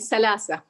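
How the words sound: The consonants are said as s sounds. "the th is pronounced as sa or ta. So can, they could say salasa"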